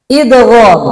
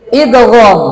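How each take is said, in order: Both takes have the same delivery.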